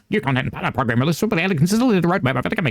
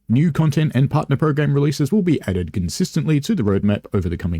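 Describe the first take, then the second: First: It is read in a put-on advert announcer voice. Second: It is read in the speaker's ordinary voice.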